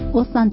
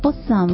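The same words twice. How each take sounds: First: The pitch accent does not fall on the first syllable. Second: The pitch accent falls on the first syllable. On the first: The speaker calls it wrong. "ちゃいますよね" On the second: The speaker calls it right. "おにアクセントを置きます"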